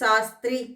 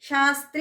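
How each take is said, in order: First: The word begins with an 's' sound. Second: The word begins with an 'sh' sound. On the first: It refers to a woman. The speaker calls it wrong. "షాని కూడా సా పలికేసామనుకోండి" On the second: It names a scholarly title. The speaker calls it right. "శాస్త్రి అనకుండా"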